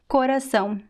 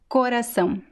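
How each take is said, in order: First: The first O is pronounced closed. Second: The same.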